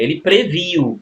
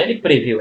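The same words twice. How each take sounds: First: "previu" stressed as the right form; "ele previu" said as the correct form. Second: "preveu" shown as the mistaken form; "ele preveu" said as the error to avoid; wrong form. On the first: Teacher gives students the right "previu" form. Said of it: "é ele previu". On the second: Teacher shows students the wrong "preveu" form. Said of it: "não é ele preveu". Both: Shown as a demonstration.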